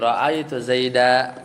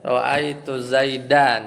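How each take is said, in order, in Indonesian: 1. Kata terakhir berakhir dengan vokal a panjang. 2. Kata terakhir berakhir dengan bunyi -an. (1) "jadi ra'aitu Zaida gitu ya" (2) "aslinya begitu kan?"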